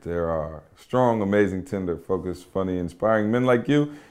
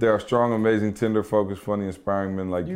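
First: The list is read slowly, dwelling on each adjective. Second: The list is read quickly, rushing the adjectives. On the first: The speaker calls it right. "Give me all the adjectives" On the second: The speaker calls it wrong. "You read it too fast"

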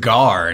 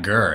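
First: The syllable has an open 'ah' vowel. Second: The syllable has a central 'er' vowel. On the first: The speaker calls it right. "his name is Gar" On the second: The speaker calls it wrong. "not Gur"

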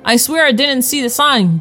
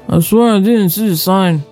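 First: It is said clearly, in a normal voice. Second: It is mumbled, low and unclear.

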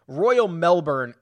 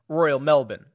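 First: It is said in an American accent. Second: It is said in an Australian accent.

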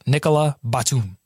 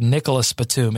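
First: The first name ends without any S sound. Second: The first name ends with an audible S sound. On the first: The speaker calls it right. "The S is silent" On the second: The speaker calls it wrong. "I've already mispronounced the first one"

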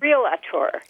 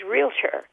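First: Said with an extra vowel between the L and T. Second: Said with no vowel between the L and T. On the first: The speaker calls it wrong. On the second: The speaker calls it right.

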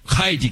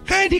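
First: It is said as a firm, commanding order. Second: It is said as a soft, polite request. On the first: The dog must obey now. The speaker calls it right. "But I want to say" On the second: The dog is politely asked and may refuse. The speaker calls it wrong. "Not just, Heidi, come, wouldn't you mind?"

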